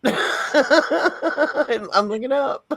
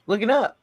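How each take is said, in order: First: Laughing, high and very slow. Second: Said in the usual way. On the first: Real, not acted. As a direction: laugh through the words as you repeat them. Laughing repeat of looking up.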